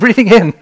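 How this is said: It sounds nervous and anxious.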